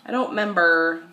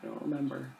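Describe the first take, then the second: First: Louder repeat. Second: Said in the usual way. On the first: Real, not acted. Repeats the line much louder.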